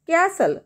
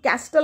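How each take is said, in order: First: The t sound is left out entirely. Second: The t sound is pronounced in the middle. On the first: The speaker calls it right. "टी is silent" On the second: The speaker calls it wrong. "इथं आपण कॅस्टल असं म्हणतो का, नाही"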